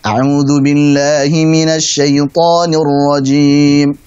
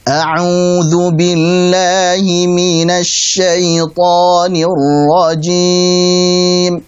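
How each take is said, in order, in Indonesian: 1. Bacaannya berirama sedang. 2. Bacaannya lambat, dengan vokal yang dipanjangkan. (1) "Pada yang sedang" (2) "dua harokatnya yang lambat"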